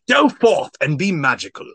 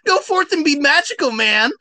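First: It is said in a Shakespearean voice. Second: It is said in Shaggy's voice.

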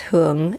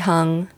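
First: The name is said with a Vietnamese pronunciation. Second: The name is said with an American pronunciation. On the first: "if you pronounce it correctly the Vietnamese way" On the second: "for like Americanized version"

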